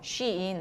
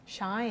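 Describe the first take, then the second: First: The name begins with a 'shee' sound. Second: The name begins with a 'shy' sound. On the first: The speaker calls it right. "쉬인이요" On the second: The speaker calls it wrong. "그만큼 그 친구도 그 발음을 못하는 거예요"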